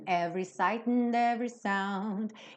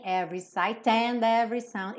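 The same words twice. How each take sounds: First: The vowel in 'and' is reduced and pulled inward. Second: The vowel in 'and' is open and fully projected. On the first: The speaker calls it right. "É como se fosse um som para dentro" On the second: The speaker calls it wrong. "Então não tem every sight and every sound"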